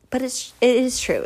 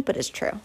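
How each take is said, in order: First: Said in the usual way. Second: A quick unvoiced aside; whispered aside. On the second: Shown as a demonstration. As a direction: whisper the words but it's true. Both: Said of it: "It's corny, but it's true".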